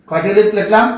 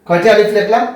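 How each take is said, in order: The two takes are said the same way.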